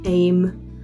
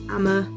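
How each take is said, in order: First: The name is said as one syllable, 'Aim'. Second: The name is said as two syllables, 'Amma'.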